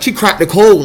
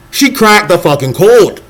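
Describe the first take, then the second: First: Said in the usual way. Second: "She cracked the fucking code" slow, every word leaned on; emphatic slow declaration. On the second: Real, not acted. Insisting to viewers the rapper broke through, slow and emphatic. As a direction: drive the point home, slowly.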